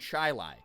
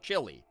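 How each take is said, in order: First: The word is said the local town way. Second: The word is said the usual food way. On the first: It refers to the suburb. "you go to that suburb, you're in chili" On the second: It refers to the dish. "the food is still chili"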